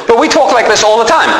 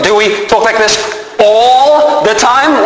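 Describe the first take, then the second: First: Said in the usual way. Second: Questioning, with ALL drawn out very long; pause, then stretch "all" slowly to challenge it; stress on ALL. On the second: Shown as a demonstration. Challenges the phrase all the time.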